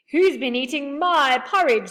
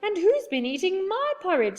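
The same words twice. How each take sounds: First: Higher, much louder cross bear voice; loud angry bear demanding answers; angry father bear. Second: Much higher, louder mother bear voice; high indignant mother bear. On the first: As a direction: bellow it like a cross papa bear. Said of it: "said the father bear angrily". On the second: Mother bear echoes father bear. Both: A narrator's reading.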